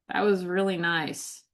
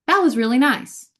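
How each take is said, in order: First: It sounds sarcastic, with tone contradicting the words. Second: It sounds sincere, with tone matching the words.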